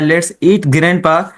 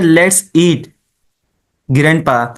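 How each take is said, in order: First: It runs on without a pause before grandpa. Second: There is a short pause before grandpa. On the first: Grandpa himself is the one being eaten. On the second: Grandpa is being invited to come and eat.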